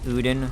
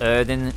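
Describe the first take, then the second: First: The first vowel sounds like 'oo'. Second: The first vowel sounds like 'er'. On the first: A female character says it this way. "The girl pronounces it Uden Chapel" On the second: A male character says it this way. "So he pronounces it Erden Chapel"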